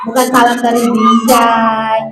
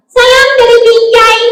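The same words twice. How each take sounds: First: Said in the usual way. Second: High, singsong puppet voice; high-pitched comic greeting; cheeky puppet. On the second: Acted. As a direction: call it out high as a mischievous puppet. Puppet gives a silly greeting.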